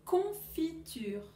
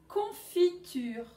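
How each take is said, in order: First: Slow, drawn-out Confiture again; slow repeat. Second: Slow, drawn-out Confiture; slow teaching word. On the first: Teacher repeating for pupils, slow and drawn out. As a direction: repeat Confiture slowly for the class. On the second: Teacher to pupils, slowly drawn out. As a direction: stretch out Confiture syllable by syllable. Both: Shown as a demonstration. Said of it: "vous allez dire si on entend".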